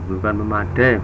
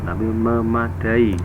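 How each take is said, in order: First: The final 'ai' is said as one syllable. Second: The final 'ai' is said as two syllables. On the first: The speaker calls it wrong. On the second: The speaker calls it right. "tapi memadai ... Satu, dua, tiga, empat"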